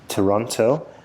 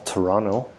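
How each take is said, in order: First: Toronto is said with a non-local pronunciation. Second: Toronto is said with the locals' pronunciation.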